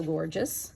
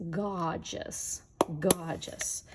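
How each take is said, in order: First: Said in the usual way. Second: "Gorgeous" with the R dropped, like "gah-juss"; "Gorgeous" as GAH-jus, twice over; imitating friend's granddaughter. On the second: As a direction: say "Gorgeous" r-less, as a little imitation. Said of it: "as my friend Janet's granddaughter says".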